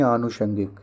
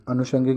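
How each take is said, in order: First: Said in the usual way. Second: अनुषंगिक with a short first a; wrong short opening. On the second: Shown as a demonstration. Teacher quoting the mistake, short first vowel in अनुषंगिक. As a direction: open अनुषंगिक on a brief a. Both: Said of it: "अनुषंगिक नहीं".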